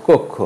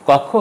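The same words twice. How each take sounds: First: কক্ষ with closed "o" first; কক্ষ with both vowels rounded "o". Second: কক্ষ with open "aw" first; open first vowel. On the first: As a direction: say কক্ষ as "kok-kho". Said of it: "হবে". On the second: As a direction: say কক্ষ as "kawk-kho". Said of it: "হবে না". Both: Shown as a demonstration.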